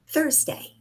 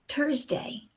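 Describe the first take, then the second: First: It begins with a soft 'th' sound. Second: It begins with a hard 't' sound. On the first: The speaker calls it right. "the English T H sound" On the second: The speaker calls it wrong. "That is not clear English"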